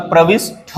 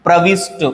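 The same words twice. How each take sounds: First: प्रविष्ट ending in a puffed 'tha'; correct aspirated ending. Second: प्रविष्ट ending in a plain 'ta'; no puff of breath on the ट of प्रविष्ट; wrong unaspirated ending. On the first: Teacher gives the correction, प्रविष्ट with aspirated tha. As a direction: end प्रविष्ट on an aspirated ठ sound. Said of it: "होता है". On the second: Teacher rejects a common error, प्रविष्ट with unaspirated ta. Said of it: "नहीं होता". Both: Shown as a demonstration.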